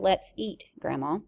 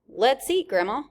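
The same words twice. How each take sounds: First: There is a pause before Grandma. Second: It runs straight on with no pause before Grandma.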